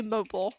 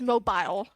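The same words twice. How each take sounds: First: "mobile" as MO-bull, reduced second syllable; MO-bull pronunciation. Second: "mobile" as MO-bile, long I; MO-bile pronunciation. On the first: Shown as a demonstration. Streamer contrasts their own way, "mobile" as MO-bull. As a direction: say "mobile" to rhyme with noble. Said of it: "I say". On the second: Retold or imitated. Streamer contrasts his way, "mobile" as MO-bile. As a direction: say "mobile" to rhyme with file. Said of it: "He says".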